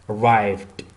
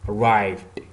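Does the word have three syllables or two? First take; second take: two; two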